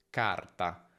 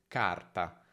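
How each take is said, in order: No difference in how they are said.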